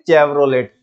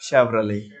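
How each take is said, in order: First: It starts with 'ch' and ends in 't'. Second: It starts with 'sh' and has no final 't'. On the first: The car sounds ordinary and unimpressive. The speaker calls it wrong. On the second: The car sounds classy and impressive. The speaker calls it right.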